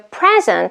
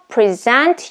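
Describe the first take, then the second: First: The stress is on the first syllable. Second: The stress is on the second syllable. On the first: It is used as a noun. "second present is used as a noun" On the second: It is used as a verb. "the first present is used as a verb"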